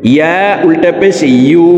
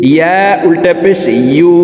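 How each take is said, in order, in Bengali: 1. শেষের স্বরবর্ণটি একটি y-গ্লাইড দিয়ে শুরু হয়। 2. শেষের স্বরবর্ণটি একটি y-গ্লাইড দিয়ে শুরু হয়।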